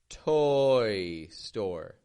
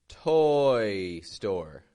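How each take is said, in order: The two takes are said the same way.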